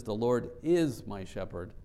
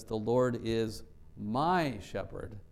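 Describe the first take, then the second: First: "is" punched as the strongest word; stress on is. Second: Slow, with "my" held and emphasized; stress on my. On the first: Preacher contrasts it with was or shall be, stress on "is". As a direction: lean hard on "is", present tense. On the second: Preacher says he is mine right now, slow stress on "my". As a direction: draw it out, leaning on "my". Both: Shown as a demonstration. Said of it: "let's emphasize each word".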